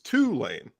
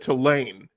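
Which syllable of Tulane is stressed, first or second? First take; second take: first; second. First: The stress is on the first syllable. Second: The stress is on the second syllable. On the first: This is how locals in New Orleans say it. The speaker calls it right. "we put the emphasis on the first part" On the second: This is how a northerner says it. The speaker calls it wrong. "that's very uh, northern of you"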